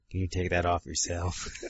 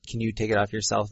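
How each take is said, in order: First: It is said in a put-on dirty voice. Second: It is said in a plain, normal voice.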